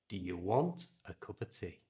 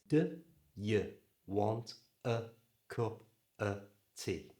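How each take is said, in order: First: The sentence is said at normal speed. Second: The sentence is said slowly and carefully. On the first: "Now we're going to say it at normal speed" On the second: "let's just practice getting those schwa sounds in"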